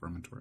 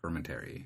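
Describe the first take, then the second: First: The ending sounds like 'ory'. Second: The ending sounds like 'airy'.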